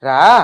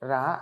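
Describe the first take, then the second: First: The word is said in a harsh, angry tone. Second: The word is said in a calm, gentle tone.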